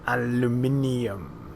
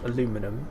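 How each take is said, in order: First: The word is said with five syllables. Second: The word is said with four syllables. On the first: The speaker calls it right. "Very important we say it that way" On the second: The speaker calls it wrong. "It is not aluminum"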